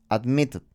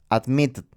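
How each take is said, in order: The two takes are said the same way.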